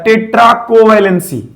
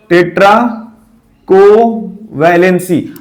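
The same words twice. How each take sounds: First: Said in the usual way. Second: टेट्राकोवैलेंसी stretched out slowly, syllable by syllable; slow syllable drill. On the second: Shown as a demonstration. Teacher to students, drilling the new term slowly. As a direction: spell out टेट्राकोवैलेंसी slowly for the class to repeat. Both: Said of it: "क्या बोला जाता है?".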